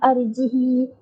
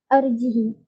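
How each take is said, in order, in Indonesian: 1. Vokal i di akhir dibaca panjang. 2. Vokal i di akhir dibaca pendek. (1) "kasrahkan hak dan silah" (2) "kasrahkan hak dan tanpa silah"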